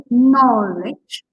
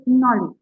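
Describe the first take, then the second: First: KNOWLEDGE with KNOW- stretched long and loud; exaggerated, drawn-out stress on the start of knowledge; over-stressed first syllable. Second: Said in the usual way. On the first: Shown as a demonstration. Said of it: "you don't have to say". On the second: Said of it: "You can say knowledge".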